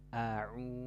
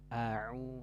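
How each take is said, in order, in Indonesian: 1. Vokal pertama dibuka sangat lebar. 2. Vokal pertama dibuka sangat lebar.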